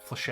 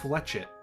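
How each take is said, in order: First: The word is pronounced the French way. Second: The word is pronounced the plain English way. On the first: "Do you want me to pronounce it like that?" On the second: "I said Fletchet"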